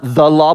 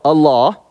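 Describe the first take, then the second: First: "the" stressed as the definite article. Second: "a" stressed, said like the letter A. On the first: Preacher ruling out one article, stressing "the". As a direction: lean on "the", not on "law". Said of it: "this article, "a," not the law". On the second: Preacher correcting to the indefinite article, stressing "a". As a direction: lean on "a", not on "law". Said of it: "this article, "a," not the law, but a law". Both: Shown as a demonstration.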